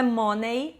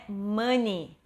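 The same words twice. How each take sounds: First: Money with a round O, MO-nay; wrong pronunciation. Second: Money as MUN-ee; money with a short uh vowel, MUN-ee; correct pronunciation. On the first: Teacher showing the Brazilian error, money as MO-nay. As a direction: read money as it is spelt. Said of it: "Aqui não é money". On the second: Teacher modelling money, MUN-ee. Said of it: "é money". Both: Shown as a demonstration.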